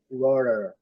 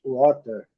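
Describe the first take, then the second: First: WATER with the T tapped like a soft R; American soft T. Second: WATER with a clearly pronounced T. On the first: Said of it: "mas os americanos pronunciam". ("water" americano, T com som de R) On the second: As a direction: sound the T fully in "water". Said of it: "Aqui, claramente". ("water" com T bem claro) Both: Shown as a demonstration.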